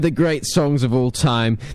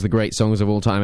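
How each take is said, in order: First: The phrase is spoken more slowly. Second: The phrase is spoken quickly. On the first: The speaker calls it right. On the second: The speaker calls it wrong.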